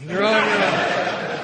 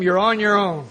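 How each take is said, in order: First: Drawn out slowly through a laugh; slow laughing repeat. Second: Said in the usual way. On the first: Shown as a demonstration. Speaker repeating the disclaimer to the room, laughing slowly. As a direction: let the warning dissolve into laughter, stretched out. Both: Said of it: "If you use them".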